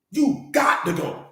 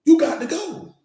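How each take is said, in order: First: Measured, slow finality; slow and deliberate. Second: Higher, louder, punching it out; sharp you got to go; emphatic. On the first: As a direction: drag out You got to go slowly. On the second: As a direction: make it final, up and loud. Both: Acted. Repeats the line for emphasis.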